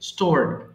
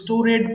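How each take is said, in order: First: The ending is joined without an extra syllable. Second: The ending is said as an extra syllable. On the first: The speaker calls it right. "কিন্তু হবে স্টোরড" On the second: The speaker calls it wrong. "অনেকে ভুল করে স্টোরেড বলে ফেলে"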